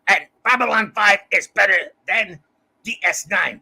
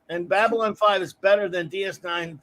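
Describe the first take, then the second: First: It is said in a put-on character voice. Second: It is said in the speaker's ordinary voice. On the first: The speaker calls it right. "you have to say, ... Zathras says" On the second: The speaker calls it wrong. "no, you can't say it like that"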